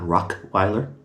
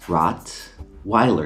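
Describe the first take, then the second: First: The first syllable ends in a k sound. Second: The first syllable ends in a t sound. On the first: The speaker calls it wrong. "not Rockweiler" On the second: The speaker calls it right. "Rottweiler, not Rockweiler"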